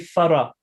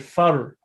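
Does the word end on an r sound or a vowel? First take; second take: vowel; r sound. First: A vowel is added after the r sound. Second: The word stops on the r sound. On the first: The speaker calls it wrong. "We don't say fara" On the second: The speaker calls it right. "but we say far. ... We stop on the ra"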